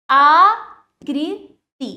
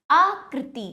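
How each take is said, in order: First: आकृति very slow, loud long आ, then कृ... ति; broken into syllables. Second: Said in the usual way. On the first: Shown as a demonstration. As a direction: stretch आकृति into आ... कृ... ति. (आकृति को तोड़कर, आ लंबा और ज़ोर से) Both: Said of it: "तोड़कर पहले".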